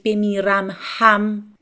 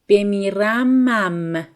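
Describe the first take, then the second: First: The h sound of ham is pronounced. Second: The h sound of ham is dropped. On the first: The speaker calls it wrong. "we won't say بمیرم هم" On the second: The speaker calls it right. "We somehow omit the uh, he sound in ham"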